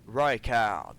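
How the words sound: The name is said with an English accent. "en anglais"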